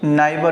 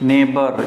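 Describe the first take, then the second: First: The first vowel sounds like 'eye'. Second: The first vowel sounds like 'ay'. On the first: The speaker calls it wrong. "वो गलत हो जाता है" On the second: The speaker calls it right. "ये आपका correct हो जाता है"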